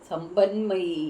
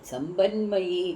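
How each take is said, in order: No difference in how they are said.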